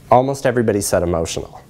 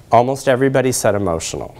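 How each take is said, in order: Both takes have the same delivery.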